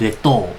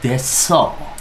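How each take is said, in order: First: The second syllable starts with a t sound. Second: The second syllable starts with an s sound. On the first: The speaker calls it wrong. "bukan deto" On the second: The speaker calls it right. "dibacanya jadi deso"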